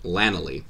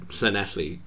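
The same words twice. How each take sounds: First: The name is pronounced carelessly, without its native sounds. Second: The name is pronounced carefully, with its native sounds. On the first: The speaker calls it wrong. "call it Llanelli because they're not even trying" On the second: The speaker calls it right. "I've said Llanelli properly"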